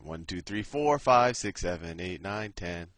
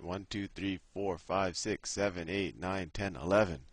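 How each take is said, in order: First: It is counted in a Sesame Street voice. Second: It is counted in his plain voice.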